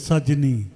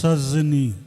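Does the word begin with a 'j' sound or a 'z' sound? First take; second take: j; z. First: The first consonant is a 'j' sound. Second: The first consonant is a 'z' sound. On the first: The speaker calls it right. "सजनी हेते" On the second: The speaker calls it wrong. "तू कहलक सजनी, वो सजनी नहीं थे"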